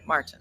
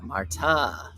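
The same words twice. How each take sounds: First: The name is said short and plain. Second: The name is said with a drawn-out vowel. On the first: The speaker calls it right. "The simple way" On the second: The speaker calls it wrong.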